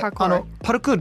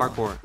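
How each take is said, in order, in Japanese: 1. 日本語の'pa-ru-kuu-ru'に聞こえる。母音が足されている。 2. 英語の'par-kor'に聞こえる。長い音節が二つ。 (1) "パルクールの方がもう馴染みがすごいある" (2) "英語の発音"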